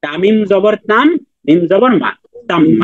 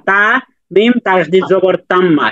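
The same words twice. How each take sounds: First: Teacher's chunked recital: "তাম", "মা", then "তাম্মা"; correct spelling-out. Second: Name every sign slowly, only then say "তাম্মা"; wrong spelling-out. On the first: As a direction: spell in two steps, rising "তাম", falling "মা", then joined "তাম্মা". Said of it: "আমরা বলবো এইভাবে". (দুই ভাগে "তাম", "মা", তারপর মিলিয়ে "তাম্মা") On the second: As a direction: spell straight through to "তাম্মা" as one unit. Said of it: "এভাবে বলা যাবে না". (না ভেঙে একটানা বানান করে শেষে "তাম্মা") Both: Shown as a demonstration.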